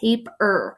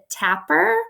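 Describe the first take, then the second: First: The first syllable sounds like 'tape'. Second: The first syllable sounds like 'tap'. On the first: The speaker calls it right. "It's tape, like tape, sticky stuff" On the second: The speaker calls it wrong. "she actually pronounced it tapper. Um, which is incorrect"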